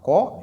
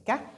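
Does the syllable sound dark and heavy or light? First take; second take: heavy; light. First: The syllable has a dark, heavy vowel. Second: The syllable has a light, clear vowel. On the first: The speaker calls it wrong. "c'est pas corps" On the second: The speaker calls it right. "lu de façon légère"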